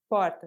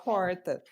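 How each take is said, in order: First: The R has a neutral, unmarked sound. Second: The R has a strong countryside regional sound. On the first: The speaker's origin cannot be identified. The speaker calls it right. "você nem prestou atenção, né, não sabe de onde é que eu sou" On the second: The speaker comes from the interior. The speaker calls it wrong. "eu sou do interior, né, então se não não prestar atenção, eu vou falar porta. E isso é um ruído"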